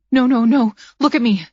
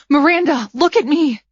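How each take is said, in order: First: Pleading. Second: Higher, louder frantic plea; desperate pleading. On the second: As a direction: beg her to stay with you. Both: A narrator's reading. Begging dying friend to respond.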